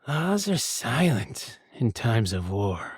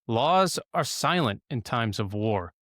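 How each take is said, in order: First: It is said in a hissy, weaselly Tactus voice. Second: It is said in a normal narrating voice.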